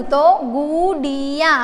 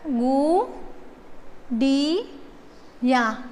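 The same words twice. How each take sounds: First: Said in the usual way. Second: Gudiya drawn out very slowly and softer; slow soft model word. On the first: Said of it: "डियागु". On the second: Shown as a demonstration. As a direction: stretch Gudiya softly for writing.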